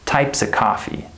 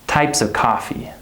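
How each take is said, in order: First: The word 'of' is reduced to 'uh'. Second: The word 'of' is reduced to 'uh'.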